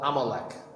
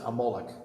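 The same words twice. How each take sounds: First: The name has a plain English pronunciation. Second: The name has a Yiddish pronunciation.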